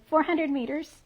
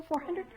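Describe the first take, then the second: First: Said in the usual way. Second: Rising, checking four hundred?; unsure question. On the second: Real, not acted. Shopkeeper checking the yarn length with a colleague, tentative rising question. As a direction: ask hundred? with a tentative upward lift.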